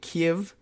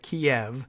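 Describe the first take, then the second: First: The city name uses the different, newer pronunciation. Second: The city name uses the familiar older pronunciation. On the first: "supposed to hint at a different pronunciation" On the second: "I know we always said Kiev"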